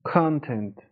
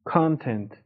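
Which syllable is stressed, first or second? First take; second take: first; first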